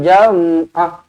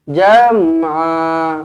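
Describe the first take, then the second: First: The final vowel is cut short and stopped. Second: The final vowel is held for two counts. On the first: The speaker calls it wrong. "bukan jam'ah. Ha, tak boleh macam tu" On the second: The speaker calls it right. "a mestilah dua harokat"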